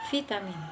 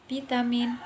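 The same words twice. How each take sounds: First: Vitamin said as fitamin, with F/V; educated pronunciation. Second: Vitamin said as pitamin, P for V; uneducated pronunciation. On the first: Student demonstrates the educated way of saying vitamin. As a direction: start vitamin with a V. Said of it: "terpelajar menggunakan huruf V". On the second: Student demonstrates the uneducated way of saying vitamin. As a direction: start vitamin with a P. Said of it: "yang vitamin". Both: Shown as a demonstration.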